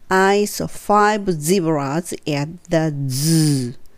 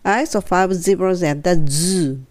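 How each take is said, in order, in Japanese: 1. ゆっくりのペースで話されています。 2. 速めのペースで話されています。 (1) "2 回ゆっくり言って" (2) "3 回目はちょっと早く"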